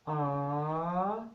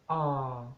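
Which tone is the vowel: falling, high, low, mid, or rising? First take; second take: rising; low. First: The pitch dips low, then goes up. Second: The pitch starts low and goes lower. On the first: "the rising tone" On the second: "the low tone"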